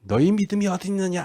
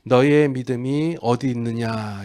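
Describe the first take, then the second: First: Higher-pitched scolding question; mock reproach. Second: Slow, unhurried question after the build-up; gentle question. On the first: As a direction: lightly tell them off, pitched up. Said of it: "제자들을 핀잔하는 장면일까요". (핀잔주듯 높은 목소리로) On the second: Acted. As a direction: ask it slowly, without reproach. Gentle retake after rescue, against scolding. (나무람 없이 천천히)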